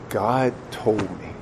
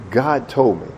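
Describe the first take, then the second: First: Very soft, slow confession; grave hushed answer. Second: Said in the usual way. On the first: Acted. Father explaining to his son, grave hush. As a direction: give the answer slowly, almost under the breath. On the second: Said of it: "at that point I'm thinking".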